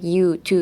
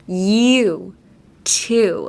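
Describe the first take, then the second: First: "you, to" short and straight, no glide; straightened out. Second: "you, to" drawn out with scooped vowels; digging a hole. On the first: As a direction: say "you, to" quickly with level vowels. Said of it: "straighten out the words too much". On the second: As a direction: stretch "you, to", dipping into each vowel. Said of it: "try digging a hole". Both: Shown as a demonstration.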